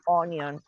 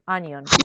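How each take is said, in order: First: The first vowel is a rounded 'o' sound. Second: The first vowel is an open 'uh' sound. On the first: The speaker calls it wrong. "and not onion" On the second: The speaker calls it right. "that is onion"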